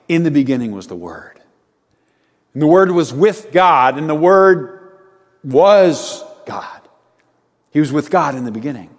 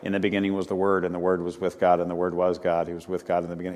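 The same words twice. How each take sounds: First: It is told in a lively, expressive way. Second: It is read in a flat, monotone way.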